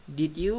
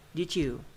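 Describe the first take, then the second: First: "did you" as two words, rising; unblended "did you" with a clean y; unlinked DID YOU. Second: "did you" blended as "didjoo"; assimilated DID YOU. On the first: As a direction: keep "did" and "you" apart. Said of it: "Become did you". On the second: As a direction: link "did you" with a j or ch sound, falling. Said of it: "This is assimilation". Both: Shown as a demonstration.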